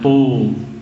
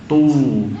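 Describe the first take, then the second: First: The vowel is darkened toward o. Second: The vowel is a clear u sound. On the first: The speaker calls it wrong. "jangan tu, tu bukan" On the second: The speaker calls it right. "tetap u"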